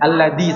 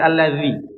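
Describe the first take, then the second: First: The middle consonant is a hard d sound. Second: The middle consonant is a flowing th sound. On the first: The speaker calls it wrong. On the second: The speaker calls it right. "zal bukan da"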